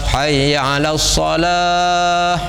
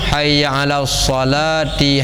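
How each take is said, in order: First: It stops on the last word, dropping its ending. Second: It keeps the final vowel and runs into the next phrase. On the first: "Mia wakaf" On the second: "Mia sambung"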